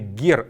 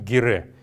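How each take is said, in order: First: The word ends on the r with no vowel. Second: The word ends with a vowel after the r. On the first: The speaker calls it right. "правильное произношение этого слова будет именно гер" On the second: The speaker calls it wrong. "а не гере"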